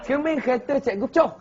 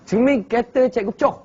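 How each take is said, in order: First: It is said in Terengganu dialect. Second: The same.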